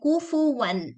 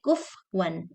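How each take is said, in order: First: A vowel follows the f sound. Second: No vowel follows the f sound. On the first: The speaker calls it right. "Say kufu one" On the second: The speaker calls it wrong. "Don't say kuf one"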